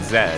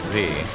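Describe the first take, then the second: First: It is said the British way, as zed. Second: It is said the American way, as zee.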